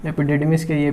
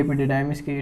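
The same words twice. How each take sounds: First: "epididymis" with ee in "didymis"; EPIDIDYMIS with short i. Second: "epididymis" with eye in "didymis"; EPIDIDYMIS with long i. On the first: Teacher offering students one variant, "epididymis" said eppy-DEE-dee-mis. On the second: Teacher offering students the other variant, "epididymis" said eppy-dih-DYE-mis. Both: Shown as a demonstration.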